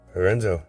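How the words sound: It is said with a Japanese pronunciation.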